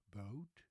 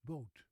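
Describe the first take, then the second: First: Boat with a gliding English O, lower; English pronunciation. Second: Boat with a short, flat Dutch O; Dutch pronunciation. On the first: Teacher contrasting languages for viewers, English boat. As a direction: let boat glide from O toward oo. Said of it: "the English word boat first". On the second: Teacher contrasting languages for viewers, Dutch boot. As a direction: say boat with the lips barely moving. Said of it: "and then the Dutch word". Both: Shown as a demonstration.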